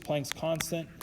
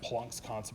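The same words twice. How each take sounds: First: Planck is pronounced with an American-style vowel. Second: Planck is pronounced with a German-style vowel. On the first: "can we just pronounce things the American way?" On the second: "It's technically pronounced Planck's constant"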